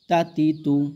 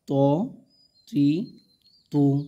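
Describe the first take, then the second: First: The syllables are short and quick. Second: The syllables are slow and drawn out. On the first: This is how the vowel marks should properly be read. "হরকতের উচ্চারণ তাড়াতাড়ি করতে হয়" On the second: It is read this way to help beginners learn. "আমরা শেখার জন্য এগুলো একটু হালকা করে টেনে টেনে পড়ছি"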